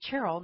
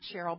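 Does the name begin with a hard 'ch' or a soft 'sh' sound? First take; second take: hard ch; soft sh. First: The name begins with a hard 'ch' sound. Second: The name begins with a soft 'sh' sound. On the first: The speaker calls it right. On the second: The speaker calls it wrong. "not Cheryl"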